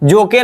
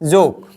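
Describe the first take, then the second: First: The word ends with an extra vowel sound. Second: The word ends on the k consonant. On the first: The speaker calls it wrong. "जोके नहीं" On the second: The speaker calls it right.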